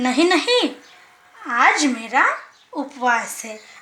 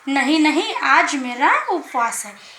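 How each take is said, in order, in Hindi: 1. शुरुआती शब्दों के बाद थोड़ा सा विराम है। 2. यह बिना रुके सीधे बोला जाता है। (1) "थोड़ी सी देर हमें रुकना पड़ता है, मतलब कुछ सेकंड ... ऐसे करके" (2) "ये हुआ पूरा वाक्य"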